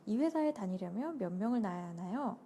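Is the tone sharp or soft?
soft. The question is asked in a soft, gentle tone. The speaker calls it right. "이렇게 하면 되나?"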